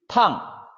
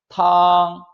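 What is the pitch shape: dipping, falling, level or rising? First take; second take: falling; level. First: The pitch falls sharply from high to low. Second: The pitch stays high and level. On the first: It means hot or to scald. "사성" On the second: It means soup. "일성"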